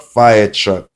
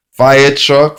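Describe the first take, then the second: First: Said in the usual way. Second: Called-out keyword. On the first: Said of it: "repeat of card keyword". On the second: Shown as a demonstration. Teacher showing the phonics card, Fire truck called out loud and high. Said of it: "phonics card keyword drill".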